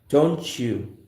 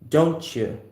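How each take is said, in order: The two takes are said the same way.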